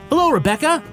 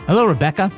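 First: The greeting is said with more enthusiasm and energy. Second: The greeting is said in a plain, ordinary way. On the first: "Say it in a more enthusiastic way" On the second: "How about I just give a real response?"

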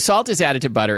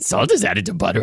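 First: It is said in an ordinary speaking voice. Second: It is said in a gravelly cartoon-monster voice.

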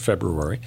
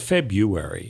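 First: The first r sound is clearly pronounced. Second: The first r sound is left out. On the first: The speaker calls it right. "I said February" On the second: The speaker calls it wrong. "Some people say February, even though last I checked, there's an R"

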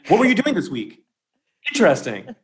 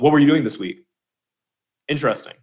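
First: It is said in a warm, eager tone. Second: It is said in a flat, neutral tone.

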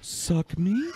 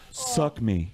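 First: It is said as a question, rising. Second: It is said as a flat statement, falling.

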